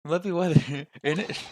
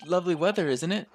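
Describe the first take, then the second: First: British "innit" with a chuckle; British accent. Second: British small talk, "isn't it" fully sounded; British accent. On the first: Player rehearses weather small talk, laughing British accent. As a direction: slur it to a British "innit", amused. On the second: Player rehearses weather small talk, British accent. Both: Shown as a demonstration. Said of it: "Gruff, gruff British voice".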